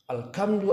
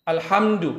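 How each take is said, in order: First: The middle consonant is a hard k sound. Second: The middle consonant is a breathy h sound. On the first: It means gloom and sadness. The speaker calls it wrong. "hak dirubah menjadi ka" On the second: It means praise. The speaker calls it right. "baca sempurna ha"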